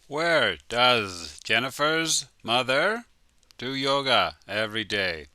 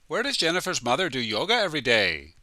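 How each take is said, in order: First: The question is said at a slow, careful pace. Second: The question is said very fast, words run together.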